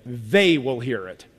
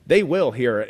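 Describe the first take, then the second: First: Slow, weighty "They will hear it" with stress on "will"; emphatic. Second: Said in the usual way. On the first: Shown as a demonstration. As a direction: lean on "will", firm and deliberate. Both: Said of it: "it's emphatic".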